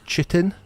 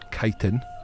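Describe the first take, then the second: First: The word begins with a 'ch' sound. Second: The word begins with a 'k' sound. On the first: "a lot of people would refer it as chitin because it's pronounced. It's written C H" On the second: "it is pronounced chitin"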